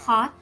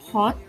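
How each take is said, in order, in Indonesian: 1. Aksen Amerika, dengan vokal o yang tidak membulat. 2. Aksen Inggris, dengan vokal o yang membulat. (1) "Sedangkan untuk American, dibaca" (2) "untuk British ... dibacanya adalah"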